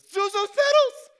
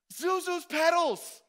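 First: Loud, high, slow ecstatic cry; joyful shout. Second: Loud, high, slow delighted cry; joyful shout again. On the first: George finds the petals in his pocket, ecstatic shout. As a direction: shout it like finding treasure. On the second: George repeats the petals line, overjoyed loud cry. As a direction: call it out overjoyed. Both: Retold or imitated. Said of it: "he goes".

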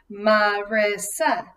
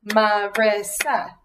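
First: Said in the usual way. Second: "Marissa" split into three clapped syllables. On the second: Shown as a demonstration. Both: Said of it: "let's count Marissa".

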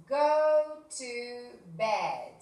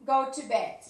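First: Very slow, stretched phrase; slow drawn-out model. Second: Said in the usual way. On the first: Shown as a demonstration. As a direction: draw every word out for them. (muy lento y alargado) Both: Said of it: "teacher models verb phrase".

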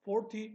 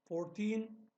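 First: Forty said short, punchy and loud; short reading. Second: Put-on fourteen drawn out, the -teen held long; long reading. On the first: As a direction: clip Forty quickly, hit the first syllable. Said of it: "kısa okunuyor". (Forty kısa ve güçlü okunuyor) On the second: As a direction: stretch fourteen, lean on -teen. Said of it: "uzun okunuyor". (fourteen uzun okunuyor, -teen uzatılıyor) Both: Shown as a demonstration.

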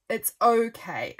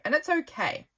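First: Slow, settled "It's okay" with a falling "okay"; resigned okay. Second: Higher, lifted "it's okay" with "okay" falling; a quick, upbeat first verdict. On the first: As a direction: repeat it slowly as a shrug. Repeats the verdict, resigned. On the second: First verdict on the free app. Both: Real, not acted.

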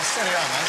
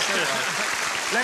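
First: Said in the usual way. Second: "Steady on" stretched out very slowly, rising at the end; slow teasing "Steady on" with a lift at the end; slow drawn-out steady on. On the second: Real, not acted. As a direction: drag out "Steady on" to calm him down. Host repeats, drawn out.

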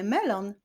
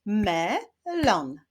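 First: Said in the usual way. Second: "Melon" split as me, pause, lon; syllable by syllable. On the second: Shown as a demonstration. Teacher leading syllable clapping, "Melon" said syllable by syllable. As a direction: sound out "Melon" in two beats. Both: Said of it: "wyklaszczemy sylaby w wyrazie melon".

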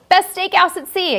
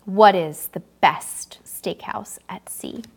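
First: Higher and louder, a game-show call; announced loud. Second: Slow whispered question, drawn out for suspense; dramatic whisper. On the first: Host announcing the quiz question to viewers, higher and louder. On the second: Host teasing the next quiz question to viewers in a slow whisper. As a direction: whisper it slowly to build suspense. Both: Shown as a demonstration.

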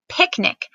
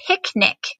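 First: "picnic" said high and clear as a dictation word; dictated word. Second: Said in the usual way. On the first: Shown as a demonstration. Teacher dictating "picnic" to her students, high and clear. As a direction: announce "picnic" slowly for the class to spell. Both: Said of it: "I am going to dictate those to you".

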